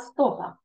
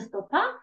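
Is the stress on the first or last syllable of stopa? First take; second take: first; last. First: The stress falls on the first syllable. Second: The stress falls on the last syllable. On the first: The speaker calls it right. "а стопа. Помним, що в польській мові наголос ставимо на передостатній" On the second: The speaker calls it wrong. "тільки не стопа"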